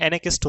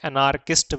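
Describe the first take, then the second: First: एनार्किस्ट with the R silent, "e-ne-kist". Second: एनार्किस्ट said with a clear R, "e-naar-kist"; R sounded in anarchist. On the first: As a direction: drop the R in एनार्किस्ट, teacher's correct model. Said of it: "इसमें से आवाज़ नहीं आती". (एनार्किस्ट में आर मौन रखें) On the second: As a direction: sound the R in एनार्किस्ट as a common mistake. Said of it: "ये जो आर है ... इसमें से आवाज़ नहीं आती". (एनार्किस्ट में आर साफ़ बोलें) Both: Shown as a demonstration.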